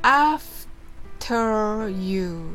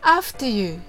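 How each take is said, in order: First: It is said slowly. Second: It is said fast.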